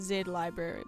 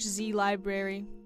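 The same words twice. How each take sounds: First: The letter Z has a non-American pronunciation. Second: The letter Z has the American pronunciation. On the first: "that's how I say it" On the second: "that is the American way of saying it"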